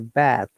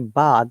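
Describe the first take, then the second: First: The vowel is said as the American vowel. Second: The vowel is a long 'ah' sound. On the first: "Americans will not say this ah sound. They will say o sound" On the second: "Whatever we say bath"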